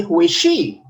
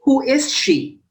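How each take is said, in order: First: "Who is she" starting lower, with a swing on "she"; "Who is she" as the wrong-tune example; wrong intonation demo. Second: "Who is she" starting high and falling on "she"; falling intonation. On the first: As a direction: ask "Who is she" with the weight swung onto "she". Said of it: "We don't say". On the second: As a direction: ask "Who is she", dropping at the end. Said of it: "So falling intonation". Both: Shown as a demonstration.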